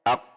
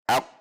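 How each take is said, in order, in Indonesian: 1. Huruf q akhir itu berat dan diucapkan lebih ke belakang. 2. Huruf q akhir itu berat dan diucapkan lebih ke belakang.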